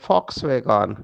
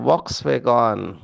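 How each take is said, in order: First: The name begins with an F sound. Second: The name begins with a V sound. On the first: "एक car है जिसका नाम है फॉक्सवैगन" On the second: "लेकिन भारतवासी उसको पढ़ते हैं वॉक्सवैगन"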